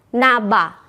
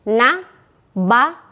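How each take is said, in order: First: The two syllables are joined without a break. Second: The two syllables are said separately with a break. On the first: "disambung naba" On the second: "boleh diputus"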